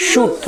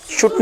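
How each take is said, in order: First: शूट with a drawn-out long "oo"; slightly stretched vowel. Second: शूट cut short, "shut" with short u; wrong short-vowel demo. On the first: Teacher models the rule for students, शूट with long u. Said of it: "थोड़ा सा खींचेंगे". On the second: Teacher shows the reading to avoid, शूट with short u. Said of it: "शूट नहीं पढ़ेंगे". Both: Shown as a demonstration.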